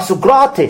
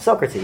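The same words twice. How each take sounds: First: The name has a Greek pronunciation. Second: The name has an English pronunciation. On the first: "he says the Greek version of that word" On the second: "I went"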